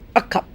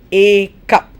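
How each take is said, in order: First: The article has a reduced, weak vowel. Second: The article has a full vowel sound. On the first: The speaker calls it right. "I say a cup" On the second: The speaker calls it wrong. "I don't say a cup"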